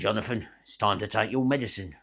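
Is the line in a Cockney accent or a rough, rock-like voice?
Cockney. It is said in a London Cockney accent. "a bit of a London accent, Cockney geezer"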